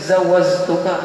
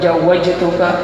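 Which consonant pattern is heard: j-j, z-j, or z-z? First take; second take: z-z; j-j. First: It has a z sound in both places. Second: It has a j sound in both places. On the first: "huruf jim digantinya oleh zai" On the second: "dengan jim keduanya"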